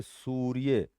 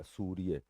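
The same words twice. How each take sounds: First: सूर्य slow, with सू long and pressed; stress on सू. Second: Said in the usual way. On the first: Shown as a demonstration. Teacher shows students where the stress falls, slow stressed demo. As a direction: drag out the सू of सूर्य. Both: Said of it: "सू पे जोर है तो ये सू पूरा आएगा".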